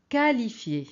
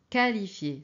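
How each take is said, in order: The two takes are said the same way.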